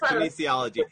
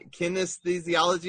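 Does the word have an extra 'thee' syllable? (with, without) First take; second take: without; with. First: The word has no extra 'thee' syllable inside. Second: The word has an extra 'thee' syllable inside. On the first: The speaker calls it right. "I wasn't even close" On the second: The speaker calls it wrong. "So I messed up on the pronunciation"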